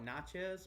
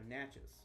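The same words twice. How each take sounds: First: It does not rhyme with matches. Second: It rhymes with matches, starting with n. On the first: The speaker calls it wrong. "I used to call it Natchez" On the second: The speaker calls it right. "it's like matches, but with an N"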